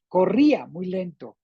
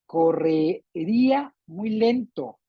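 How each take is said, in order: First: "corría" said right in three syllables, co-rrí-a, stress on rí; corrected word. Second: Slow slip saying "Correría" with an extra syllable, co-rre-rí-a; misread word. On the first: Teacher corrects her slip, saying "corría" properly. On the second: Teacher slips while reading the example sentence, slowly misreading "Correría". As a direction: read "Correría" wrongly as four syllables, unhurried. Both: Real, not acted. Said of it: "O, perdón".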